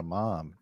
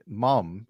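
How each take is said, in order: First: "mom" with a long open ah vowel, American style. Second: "mum" with a short open uh vowel, British style. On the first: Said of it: "It sounds like you're calling a mom". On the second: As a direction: say "mum" rhyming with gum, the British way. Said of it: "it sounds like mum". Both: Shown as a demonstration.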